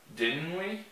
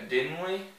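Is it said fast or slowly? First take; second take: slowly; fast. First: It is said at a slower, careful pace. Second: It is said quickly, as in fast speech.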